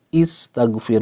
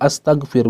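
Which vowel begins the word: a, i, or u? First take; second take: i; a. First: The word begins with an i vowel. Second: The word begins with an a vowel. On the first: The speaker calls it right. "dimulai dengan uh, kasroh" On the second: The speaker calls it wrong.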